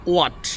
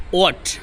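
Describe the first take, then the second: First: What said with a clear w sound, "wat"; correct what. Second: What said as "at" with no w sound; common wrong what. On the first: Teacher shows the correct what, with a clear w. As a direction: start what with a rounded w. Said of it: "Correct pronunciation is". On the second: Teacher shows the common mistake, what as "at". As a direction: drop the w and say what like "at". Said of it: "আমরা অনেকে এটাকে what বলি". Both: Shown as a demonstration.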